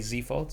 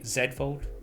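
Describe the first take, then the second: First: Z is said the American way, as zee. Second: Z is said the British way, as zed.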